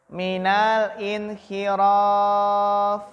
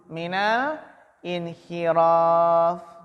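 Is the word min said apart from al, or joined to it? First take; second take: joined; joined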